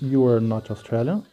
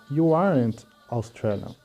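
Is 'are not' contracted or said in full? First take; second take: full; contracted. First: Are not is said as two full words. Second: Are not is contracted into one syllable. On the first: "A gente pode falar assim" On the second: "ou a gente também pode falar"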